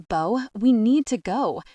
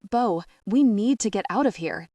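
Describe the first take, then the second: First: Loud, higher urgent command; barking. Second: Loud, clipped command; barking. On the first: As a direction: bark the order, no argument. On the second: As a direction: bark the order at her. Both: Acted. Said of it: "James barks".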